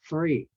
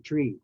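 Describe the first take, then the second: First: It starts with a breathy TH sound. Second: It starts with a plain T sound. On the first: The speaker calls it right. "the T H is soft and then there's the R there" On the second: The speaker calls it wrong. "Don't say tree"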